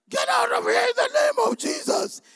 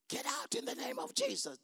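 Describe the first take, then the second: First: It is said loudly. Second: It is said at normal, softer volume.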